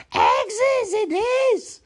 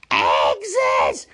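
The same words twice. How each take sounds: First: Loud, very high, drawn-out Gollum cry; high hissed screech. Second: Loud, hissing creature outburst; hissed. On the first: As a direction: screech it slowly with hissing endings. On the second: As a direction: spit it out loudly as Gollum. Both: Acted. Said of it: "he hissed".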